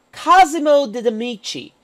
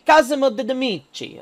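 First: Said in the usual way. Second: Hammy Italian accent on the name. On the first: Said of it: "to use my terrible Italian accent". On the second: Shown as a demonstration. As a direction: say the name like a bad Italian impression. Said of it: "to use my terrible Italian accent for a second".

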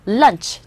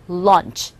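First: "lunch" with a short, quick vowel. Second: "lunch" with a longer, rounder vowel, like launch. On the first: Teacher contrasting two similar-sounding words, short "lunch". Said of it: "짧고요". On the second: Teacher showing how launch is pronounced, longer "lunch". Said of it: "요런 식으로 발음이 되죠". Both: Shown as a demonstration.

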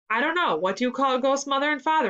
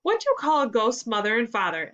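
First: Higher, lightly voiced echo of the question; repeating the riddle. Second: Said in the usual way. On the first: A narrator's reading. Jack repeating Ethan's joke, a higher echoing question. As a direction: hand the riddle back, pitched up. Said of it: "repeated Jack". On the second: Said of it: "asked Ethan".

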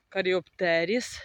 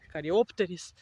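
First: Каріоптеріс said slowly with stress on ТЕ, rising at the end; stress variant of каріоптеріс. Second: Каріоптеріс with the stress moved to ОП, falling at the end; alternative stress of каріоптеріс. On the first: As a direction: draw out каріоптéріс, stressing the syllable ТЕ, tentatively. (каріоптéріс повільно, з наголосом на ТЕ) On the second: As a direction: try каріóптеріс, stressing the syllable ОП. (каріóптеріс з наголосом на ОП, зі спадною інтонацією) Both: Shown as a demonstration. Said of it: "не знаю, як правильно наголос".

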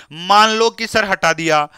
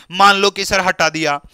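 No difference in how they are said.

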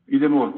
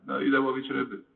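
First: Firm and much louder, a sudden call; głośne, zdecydowane ogłoszenie; loud declaration. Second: Resigned. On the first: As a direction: announce it boldly, like a man who decides. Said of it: "mówi donośnym głosem". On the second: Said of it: "głosem pewnym z rezygnacji". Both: Retold or imitated.

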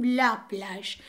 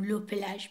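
First: لا given more weight than پلژ; stress on لا. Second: Said in the usual way. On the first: Shown as a demonstration. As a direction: lean on the article لا, correcting it. (تأکید روی «لا»)

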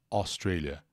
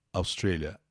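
First: Australia starting with an open O sound; open O pronunciation. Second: Australia starting with a short "uh" sound; schwa pronunciation. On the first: Teacher repeating both options for a viewer, Australia with open O. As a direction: say the first vowel of Australia as open O. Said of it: "som de O". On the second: Teacher giving a viewer the other option, Australia with initial schwa. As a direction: reduce the first vowel of Australia to "uh". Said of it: "Ou então, a". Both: Shown as a demonstration.

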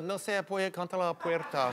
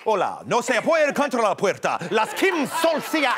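First: Softly reeled-off Spanish; half-hearted Spanish test answer. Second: Latina soap-opera actress. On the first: Retold or imitated. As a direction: say the Spanish softly, as a stock fallback. Test answer he didn't know. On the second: Acted. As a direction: play a Spanish-speaking soap star, hammed up. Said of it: "She sounds like a, like a, like a Latina, like, actress, like, in, like, a soap opera".

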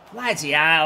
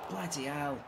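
First: "Bloody hell" burst out louder in frustration; exasperated loud "Bloody hell"; loud curse. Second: "Bloody hell" let out softly in dismay; soft groaned "Bloody hell"; muttered curse. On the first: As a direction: blurt "Bloody hell" loudly at the miss. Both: Real, not acted. Groaning at a missed chance.

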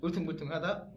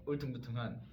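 First: Rising 울퉁불퉁하다 in a foreigner's Korean; English accent Korean. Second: Level 울퉁불퉁한 in a foreigner's Korean; English accent Korean. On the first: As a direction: say 울퉁불퉁하다 with a high, loud rising end. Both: Retold or imitated. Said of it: "외국인이 발음을".

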